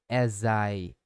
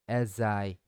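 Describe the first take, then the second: First: The final consonant links into the next vowel. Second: The same.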